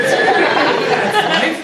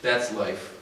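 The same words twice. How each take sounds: First: High, loud, laughing "That's life?" in disbelief; incredulous laughing echo. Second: Said in the usual way. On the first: Retold or imitated. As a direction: throw the words back, laughing in disbelief. Teen repeating it indignantly.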